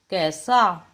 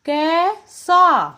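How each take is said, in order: First: Said in the usual way. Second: कैसा stretched very slowly, higher and louder; slow drawn-out demo. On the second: Shown as a demonstration. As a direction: hold the ऐ in कैसा long. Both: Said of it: "क जमा ए".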